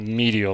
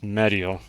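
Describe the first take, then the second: First: The first syllable sounds like 'meed' in medium. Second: The first syllable sounds like 'med' in medic. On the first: The speaker calls it wrong. "like medium" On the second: The speaker calls it right. "like like medic"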